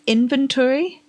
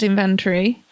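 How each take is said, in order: First: It does not start like invention. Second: It starts like the word invention. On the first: The speaker calls it right. "It's inventory" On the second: The speaker calls it wrong. "I always said inventory because it's one of those words that I've only seen written down"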